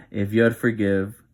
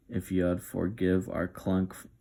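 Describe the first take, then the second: First: Breaking into a real laugh on "if you'd forgive", louder. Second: Said in the usual way. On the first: Real, not acted. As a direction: laugh through the words, losing composure. Narrator laughs on retake.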